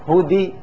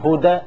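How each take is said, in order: First: The vowel after d is a full i sound. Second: The vowel after d is an open a sound. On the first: "لا نقول هدي كسرة" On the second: "ولا نقول هدى فتحة"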